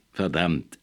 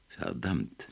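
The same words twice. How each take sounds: First: Mocking echo. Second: Soft, low muttered damn; quiet curse. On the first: Erla mockingly repeats Nemo's curse, lightly mimicked. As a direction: throw his own word back at him. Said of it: "äffte Erla nach". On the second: Nemo curses quietly on grasping the truth. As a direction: let it slip under your breath. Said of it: "sagte Nemo leise". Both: A narrator's reading.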